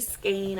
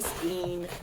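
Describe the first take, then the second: First: The vowel is a long 'ay' sound. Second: The vowel is a long 'ee' sound. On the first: The speaker calls it right. "I say skein. ... E I has the A sound" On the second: The speaker calls it wrong. "I don't say skein"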